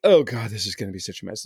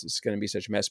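First: A mild mock fret, muttered to oneself; imitating your own dread at a coming mess; worried self-talk. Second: Trailing the worry off, much softer and under the breath; repeated much softer. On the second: Retold or imitated. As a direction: echo the dread to yourself, much softer. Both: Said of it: "and I'm like".

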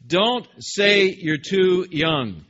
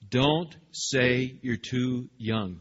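First: Slow, loud, measured parental scolding; stern parent. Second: Slow, mild stern rebuke. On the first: God scolding Jeremiah like a stern parent, slow and loud. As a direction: correct a child firmly. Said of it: "stern-sounding parental voice". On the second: God rebuking Jeremiah with a mildly stern voice. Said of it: "with a stern voice". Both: Acted.

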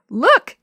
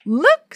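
First: Put-on high, loud giggly little-girl call; giggling. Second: High, loud excited squeal. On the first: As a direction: giggle it out as the small sister. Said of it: "giggled Yo-Yo". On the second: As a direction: squeal it like a thrilled little girl. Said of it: "squealed Yo-Yo". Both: A narrator's reading.

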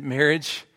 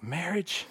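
First: Said in the usual way. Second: Put-on a failed try at an Australian accent, higher and questioning; half-hearted Australian accent on Marriage?, pitched up with a rising question; mock Australian Marriage? that slips back toward his own voice; attempted Australian accent. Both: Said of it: "I can't do an Australian accent if I would".

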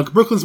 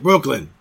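First: Said in the usual way. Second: "Brooklyn" in a put-on Brooklyn accent. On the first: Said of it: "Brooklyn's more like". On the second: Shown as a demonstration. Showing how Brooklyn differs from Queens, Brooklyn accent on "Brooklyn". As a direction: say "Brooklyn" like a Brooklyn local. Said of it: "Brooklyn's more like Brooklyn".

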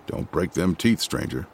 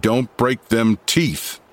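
First: Low, soft menacing warning; ominous. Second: Slow, heavier menacing repeat; more ominous. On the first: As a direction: lean in and threaten quietly. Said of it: "saying ominously". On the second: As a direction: spell out the threat slowly. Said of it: "more ominously than before". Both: A narrator's reading.

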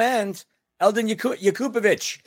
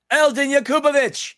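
First: Said in the usual way. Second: Higher, hyped-up shout of the name; excited exclamation. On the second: Real, not acted. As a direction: cheer Eldin Yakupovic like a fan favourite. Repeats name as a cheer.

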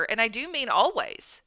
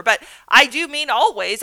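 First: Said in the usual way. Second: Louder, leaning hard on always; emphatic always. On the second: Real, not acted. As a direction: land always with full weight, defying the rule. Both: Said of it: "You don't say words like always and never".

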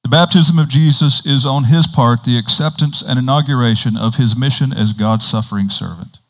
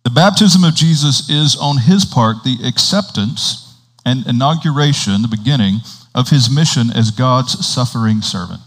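First: Continuous reading with fewer breaks; straight read-through. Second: Measured reading with breaks between phrases; slow reading. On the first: Preacher rereading the paragraph without commentary, straight read-through. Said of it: "read it again without the commentary". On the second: Preacher reading a Catechism paragraph to the congregation, slow reading. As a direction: read aloud deliberately, phrase by phrase. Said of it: "we'll read it a couple times slowly". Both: Real, not acted.

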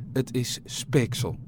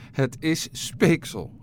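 First: Slow, drawn-out words of dawning alarm; understated panic, each word stretched; panicked realisation. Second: Slow, higher cry of alarm; drawn-out, mildly panicked call. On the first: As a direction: state it slowly with a touch of dread. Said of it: "raakte hij in paniek". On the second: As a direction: repeat it higher, stretching each word in alarm. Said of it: "riep ze". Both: A narrator's reading.

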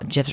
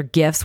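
First: "gifs" with a soft g, like jiffs. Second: "gifs" with a hard g, as in gift. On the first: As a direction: say "gifs" starting with a j sound. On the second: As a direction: start "gifs" with the g of "go". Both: Shown as a demonstration. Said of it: "whatever you wanna say".

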